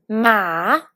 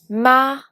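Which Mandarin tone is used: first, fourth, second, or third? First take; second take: third; second. First: The syllable carries the third tone. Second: The syllable carries the second tone. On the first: "pour le troisième ton" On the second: "pour le deuxième ton"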